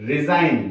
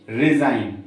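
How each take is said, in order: The two takes are said the same way.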